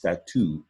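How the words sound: It is pronounced the French way. The speaker calls it right. "In French, it's pronounced statue"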